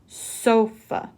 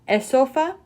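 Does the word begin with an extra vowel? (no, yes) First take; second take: no; yes. First: The word starts directly with the S sound. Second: An extra vowel sound comes before the S. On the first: The speaker calls it right. "just sofa" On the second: The speaker calls it wrong. "It's not esofa"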